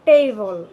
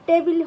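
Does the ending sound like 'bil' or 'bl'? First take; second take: bl; bil. First: No clear vowel is heard before the final l. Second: An 'i' vowel is heard before the final l. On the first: The speaker calls it right. "টেবিলটা হবে টেবল" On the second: The speaker calls it wrong. "টেবিল হবে না"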